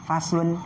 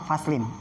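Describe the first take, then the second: First: The word ends with the vowel u before n. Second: The word ends with the vowel i before n. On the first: "bisa domah" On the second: "atau bisa kasroh"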